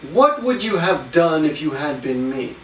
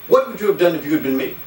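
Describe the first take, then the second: First: The sentence is said slowly and carefully. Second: The sentence is said quickly and smoothly.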